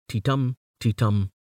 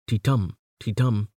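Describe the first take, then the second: The two takes are said the same way.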